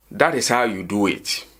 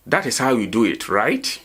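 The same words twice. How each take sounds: First: "That is how you do it" ending on a fall; statement intonation. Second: "That is how you do it, right?" rising on "right"; question tag intonation. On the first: Teacher gives an English example of a statement, statement intonation. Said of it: "this is a statement". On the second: Teacher turns the statement into a question, question tag intonation. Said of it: "It sounds like a question". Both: Shown as a demonstration.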